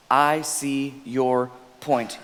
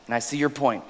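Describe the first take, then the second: First: I see your point, drawn out slowly; slow, gentle model phrase; slow deliberate demo. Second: Said in the usual way. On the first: Shown as a demonstration. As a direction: lay each word down gently. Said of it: "second part, demonstrated slowly". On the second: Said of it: "repeated model phrase".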